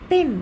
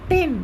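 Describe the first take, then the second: The two takes are said the same way.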